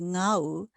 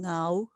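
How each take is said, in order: First: The pitch is low and falls. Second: The pitch is low and rises. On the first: "low falling in example six" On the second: "low rising in example seven"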